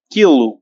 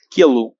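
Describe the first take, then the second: First: Quilo said as kilu with a louder start; Portuguese word demo. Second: Quilo said as kilu, calmer with a fall; repeated word demo. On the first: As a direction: stress the ki of quilo. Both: Shown as a demonstration. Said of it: "চলুন শুরু করি".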